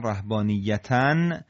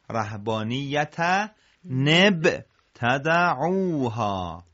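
First: رهبانیتن ending on "-tan"; "rahbaaniyyatan", unlinked; separate form. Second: Slow, linking نب as "-ta-NEB"; joined tanween. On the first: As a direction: say رهبانیتن alone, closed on N. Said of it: "رسیده به ابتدعوها". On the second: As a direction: break out نب clearly before تدعوها. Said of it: "تنوین در هنگامی که میرسه به همزهٔ وصل". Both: Shown as a demonstration.

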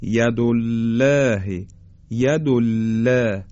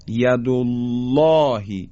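First: ید الله with thin lam and fronted "læ"; slow demo of a mistaken, flattened-vowel ید الله; wrongly light lam. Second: ید الله with thick dark lam, long backed "aw"; slow recited ید الله, full rounded الله; heavy taghliz. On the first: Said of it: "ترقیق بکنیم به جای تغلیظ". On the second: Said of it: "حالا این درشتی رو دقت کنید". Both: Shown as a demonstration.

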